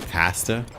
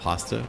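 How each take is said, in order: First: It is said the Canadian way. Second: It is said the American way. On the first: "We say pasta" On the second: "instead of"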